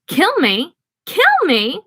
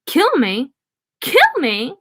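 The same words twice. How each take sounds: First: High rising clown shriek; clown's shrill taunting squeal. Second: Rising mock clown shriek; lightly voiced clown shriek. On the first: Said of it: "The clown shrieked laughter again". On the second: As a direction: taunt it like a cackling clown. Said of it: "The clown shrieked". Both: A narrator's reading.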